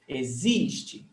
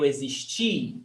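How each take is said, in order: First: The stress is on the second syllable. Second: The stress is on the last syllable. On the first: You exist now. "the stressed syllable is existe, zi, zis" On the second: I existed in the past. "The stressed syllable is ti"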